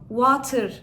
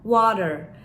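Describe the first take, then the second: First: The middle consonant is a clear t sound. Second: The middle consonant is a soft d sound. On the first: The speaker calls it wrong. "Burada bunu water diye okumuyoruz" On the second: The speaker calls it right. "Bakın burada T'yi nasıl D'ye dönüştürdüm"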